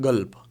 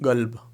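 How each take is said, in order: Both takes have the same delivery.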